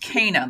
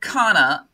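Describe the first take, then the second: First: The name is said with an English pronunciation. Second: The name is said with a German pronunciation. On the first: "I've always heard it as Cana" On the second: "Now you pronounce it Cana"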